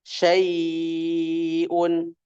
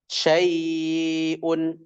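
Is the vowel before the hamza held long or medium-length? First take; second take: long; medium. First: The vowel before the hamza is held six beats. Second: The vowel before the hamza is held four beats. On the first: "tul enam harokat" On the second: "tawassud empat harokat"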